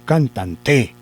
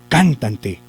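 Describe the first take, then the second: First: The stress is on the last syllable. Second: The stress is on the first syllable. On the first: "la vamos a correr. ... ¿Cierto que no?" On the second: "Vamos a hacer de cuenta que lo lleva en can"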